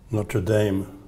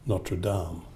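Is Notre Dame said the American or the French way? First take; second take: American; French. First: It is said with an American English pronunciation. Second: It is said with a French pronunciation.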